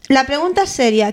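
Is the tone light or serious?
serious. It is said in a serious, sober tone.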